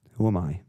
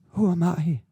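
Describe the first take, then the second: First: Said in the usual way. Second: Jumps much higher and louder, mock innocent; mock squeak. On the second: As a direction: toss it off in a squeaky mock-modest voice. Repeats question, second mocking.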